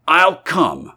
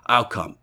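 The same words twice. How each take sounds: First: Higher, insistent "I'll come"; insistent repeat. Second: Said in the usual way. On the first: A narrator's reading. Stranger repeats it more insistently.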